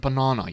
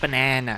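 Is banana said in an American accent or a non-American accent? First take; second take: non-American; American. First: Banana is said in a non-American accent. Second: Banana is said in an American accent. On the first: The speaker calls it right. "It's a banana" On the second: The speaker calls it wrong. "they said it too American"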